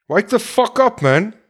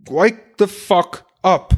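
First: Higher, urgent call to wake up; exasperated rallying cry; frustrated outburst. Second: Slow, every word weighted; deliberate, emphatic rebuke; slow hammered demand. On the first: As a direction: snap the listener out of it. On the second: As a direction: drive each word home slowly. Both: Real, not acted. Ranting at drinkers.

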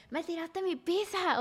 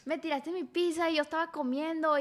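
First: Imitando al novio, agudo y lento, quejándose; novio quejumbroso. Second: Otra vez el ex, agudo, quejándose de la pizza; novio quejumbroso. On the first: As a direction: se burla del ex que solo piensa en su pizza. (el ex reclamando por su pizza, voz de burla un poco más aguda) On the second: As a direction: lo remeda con burla ligera. Repite la imitación del novio. (el ex reclamando por su pizza, remedo agudo y burlón) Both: Retold or imitated.

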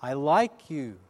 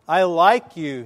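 First: Imitated echo reply. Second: Loud, projected call; boy shouting it across the valley. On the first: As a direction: echo at an ordinary volume. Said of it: "the answer came back". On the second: Retold or imitated. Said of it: "he called out".

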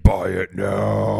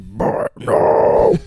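First: Buy it now, dragged out slow and pressed hard on now; slow emphatic plea. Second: Buy it now as a breathy screamed metal growl, much louder and slow; metalcore scream. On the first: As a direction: urge them slowly, leaning on each word. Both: Shown as a demonstration. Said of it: "a little bit of metalcore".

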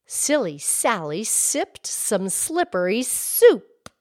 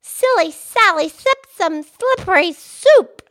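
First: Slow, deliberate tongue twister; host models the twister for her friend, slow and clear; slow tongue twister demo. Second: Repeating the tongue twister. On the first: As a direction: lean on every S, slowly. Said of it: "here's one". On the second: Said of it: "I spit a little bit". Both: Shown as a demonstration.

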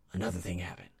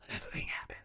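First: Said in the usual way. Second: Breathy whisper of the repeated line; hushed repeat. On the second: Shown as a demonstration. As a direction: drop to a secret whisper.

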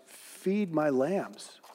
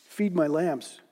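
First: Slow and soft, very tender; softer, slower "Feed my lambs"; gentle reassurance. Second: Said in the usual way. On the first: A narrator's reading. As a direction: lay the words down slowly like a kind shepherd. Jesus gently answers Peter.

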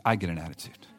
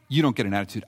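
First: I get an attitude with I leaned on, dropped lower and softer; stress on I. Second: You don't get an attitude with you leaned on; stress on you. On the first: Pastor owning up to his own grumpiness, stress on I. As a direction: confess it by hitting I. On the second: Pastor teasing the congregation, stress on you. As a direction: put the weight on you. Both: Shown as a demonstration.

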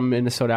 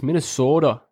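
First: Said in the usual way. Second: "Minnesota" with exaggerated Minnesotan long O; Minnesotan accent. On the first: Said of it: "Yeah, the O's". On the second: Shown as a demonstration. Showing the only Minnesotan sound he knows, round O in "Minnesota". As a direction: lean on the O in "Minnesota", Minnesotan style. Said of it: "Yeah, the O's. The only thing I know".

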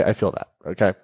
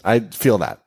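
First: Softer, lower repeat to herself; quiet echo. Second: Said in the usual way. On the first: Shown as a demonstration. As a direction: say it again under your breath. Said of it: "quiet echo of own line". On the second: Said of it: "repeats the line to herself".

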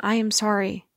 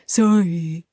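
First: Earnest, unforced repentance; simple heartfelt apology, gently voiced; sincere apology. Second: Low, mock-sulky sorry; grudging sorry, imitating someone who doesn't mean it; insincere apology. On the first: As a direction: say sorry and truly mean it. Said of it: "when you sincerely ask for forgiveness". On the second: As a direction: drag out a fake apology with attitude. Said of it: "and it's insincere".

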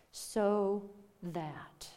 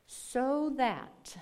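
First: Whispered repeat of "So that" for weight; emphatic whisper. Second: Said in the usual way. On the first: Real, not acted. Preacher whispering "So that" back to the congregation. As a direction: breathe "So that" out, unvoiced.

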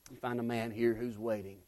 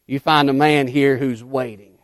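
First: Much softer, dropped to a hush; hushed repeat. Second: Said in the usual way. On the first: Acted. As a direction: pull it back almost to a murmur. Preacher repeats line, then drops.

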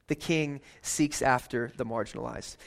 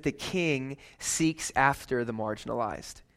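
First: "king" leaned on as the key word; stress on king. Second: Slow emphasis. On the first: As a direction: land on "king" firmly. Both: Shown as a demonstration.

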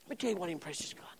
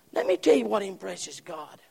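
First: Fast, unvoiced whisper. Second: Said in the usual way. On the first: Shown as a demonstration. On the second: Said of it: "repeated whispered".

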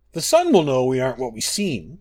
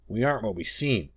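First: Loud protest from the moon; crying out. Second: Echoing. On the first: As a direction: cry it out against the wolf's threat. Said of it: "cried Master". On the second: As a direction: repeat it as the smaller moon, more subdued. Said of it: "echoed Secunda". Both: A narrator's reading.

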